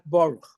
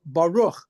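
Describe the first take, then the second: First: The stress is on the first syllable. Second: The stress is on the last syllable. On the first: The speaker calls it wrong. "Baruch is a Yiddish a Yiddishization of Hebrew" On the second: The speaker calls it right. "the correct Hebrew is would be"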